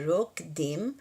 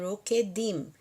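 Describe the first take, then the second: First: The k runs straight into the d. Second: An extra vowel is sounded between k and d. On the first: The speaker calls it right. "Engulam esse K aí" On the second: The speaker calls it wrong. "Não fala rokedim"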